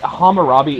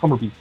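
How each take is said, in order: First: The name is said slowly and carefully. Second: The name is said very quickly and blurred. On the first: The speaker calls it wrong. "is not the pronunciation" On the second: The speaker calls it right. "you gotta say it real quick"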